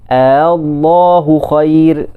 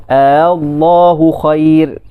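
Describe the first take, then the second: Both takes have the same delivery.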